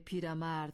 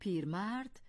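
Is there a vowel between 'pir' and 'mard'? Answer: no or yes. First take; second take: yes; no. First: An extra vowel comes after pir before mard. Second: Pir joins mard directly with no added vowel. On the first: The speaker calls it wrong. "درست نیست، چون اصل صفت پیر است نه پیره" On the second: The speaker calls it right. "می توانیم بگوییم پیرمرد"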